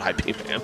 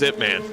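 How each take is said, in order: First: The first part is spelled out as two letters. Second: The first part is said as one short word. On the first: The speaker calls it wrong. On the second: The speaker calls it right.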